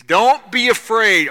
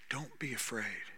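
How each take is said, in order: First: Loud, slow, firm "Don't be afraid"; commanding reassurance. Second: Soft, low "Don't be afraid"; gentle reassurance. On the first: Jesus calling to frightened disciples, loud and slow. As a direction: plant each word, strong and slow. Jesus's words, then repeated softly. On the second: Holy Spirit comforting you, soft and low. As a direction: breathe it tenderly to the listener. Same words repeated softly. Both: Acted.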